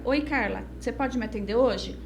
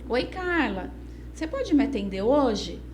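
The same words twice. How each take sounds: First: The tone is low and downcast. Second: The tone is bright and cheerful. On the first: The person is not feeling well. "se eu não tiver bem" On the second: The person is feeling well. "se eu tiver bem"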